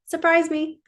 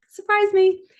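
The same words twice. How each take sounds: First: Higher, eager call to the universe; excited plea. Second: Even higher and louder, thrown open; ecstatic cry. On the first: Vlogger voicing her mantra to the universe, eagerly raised. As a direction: let it lift with eager hope. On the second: Vlogger crying out her mantra to the universe, louder and higher. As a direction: fling the words up joyfully. Repeat of mantra, rising further. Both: Pretend.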